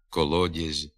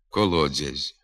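First: The soft d is plain with no hiss. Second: The soft d has a hissing dz-like sound. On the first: The speaker calls it right. "треба вимовляти" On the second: The speaker calls it wrong. "вимовляються зі свистячим відзвуком"

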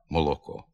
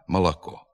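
First: The unstressed vowels sound like a clear o. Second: The unstressed vowels sound like a. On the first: The speaker calls it right. "Тут має звучати чистий звук «о»" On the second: The speaker calls it wrong. "ненаголошений «о» вимовляється як «а»"

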